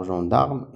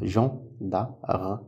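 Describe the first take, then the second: First: Said in the usual way. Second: "Gen-da-re" split into three separate beats; syllable by syllable. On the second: Shown as a demonstration. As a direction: sound out Gen, da, re for young pupils. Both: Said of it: "il y a trois syllabes".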